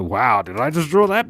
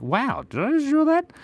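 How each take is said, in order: First: Flat, deadpan dismay; unimpressed. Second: High, delighted gasp of wonder; amazed at own drawing. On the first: Artist disappointed by own drawing, flat deadpan dismay. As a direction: say it like you regret the drawing. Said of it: "And other times I go". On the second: Artist amazed by own drawing, delighted high wonder. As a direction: marvel at it like a masterpiece. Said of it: "Sometimes I draw things and I'm like". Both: Retold or imitated.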